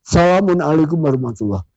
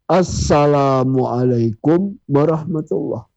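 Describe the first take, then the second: First: It is said fast and rushed. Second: It is said slowly and carefully.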